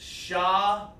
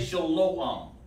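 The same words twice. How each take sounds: First: The second vowel is an A sound. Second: The second vowel is an O sound. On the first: The speaker calls it right. "It's shalom. ... Sha, la, and ma. There is no O sound" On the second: The speaker calls it wrong. "Do not say shalom. Don't do that"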